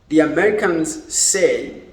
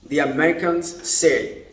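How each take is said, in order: No difference in how they are said.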